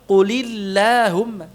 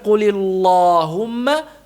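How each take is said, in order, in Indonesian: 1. L pada Allah dibaca tipis. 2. L pada Allah dibaca tebal. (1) "Tipiskan lamnya" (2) "Bukan qulillahumma"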